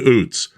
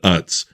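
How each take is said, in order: First: The vowel sounds like the 'oo' in 'boot'. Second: The vowel sounds like the 'u' in 'cut'. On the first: This is how people say it locally in Hanover. "people are telling me it's Oots. It's always been Oots" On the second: This is how people say it in Lancaster County. "everyone in Lancaster said Utz"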